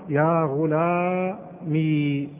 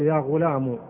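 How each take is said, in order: First: The word ends in a long ee sound. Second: The word ends in a short u sound. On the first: "أثبتت الياء ساكنة" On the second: "تحذف الياء وتضع بدل منها ضمة"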